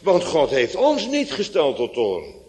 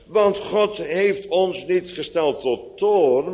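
First: The main stress falls on ons. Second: The main stress falls on toorn, not ons. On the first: The speaker calls it right. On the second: The speaker calls it wrong.

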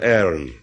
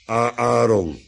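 First: The name is pronounced with an English pronunciation. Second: The name is pronounced with a Dutch pronunciation. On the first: This is how English speakers say it. "Engelsen spreken gewoon over Aaron" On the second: This is how Dutch speakers say it. "En wij zijn wat orthodoxer. Wij praten over Aaron"

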